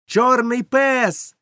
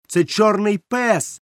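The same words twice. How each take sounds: First: Even higher, very slow shout, пес drawn out and falling; boy repeating the warning in a higher shout; higher alarmed shout. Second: High slow shout, пес held and falling; boy shouting to warn the tavern; alarmed shout. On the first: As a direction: cry пес out higher and slower. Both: A narrator's reading. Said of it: "закричав я".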